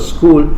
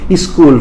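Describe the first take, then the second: First: The word starts directly without an extra vowel. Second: An extra vowel sound comes before the word. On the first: The speaker calls it right. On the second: The speaker calls it wrong.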